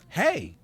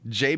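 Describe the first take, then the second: First: The name starts with an H sound. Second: The name starts with a J sound.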